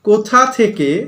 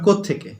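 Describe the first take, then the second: First: Both words are said fully and separately. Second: It is said fast, merged into one contracted word.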